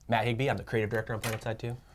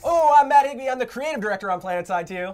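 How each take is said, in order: First: It is said quietly with low energy. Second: It is said loudly with high energy.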